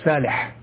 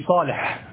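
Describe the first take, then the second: First: The first consonant is a plain s sound. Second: The first consonant is an emphatic s sound.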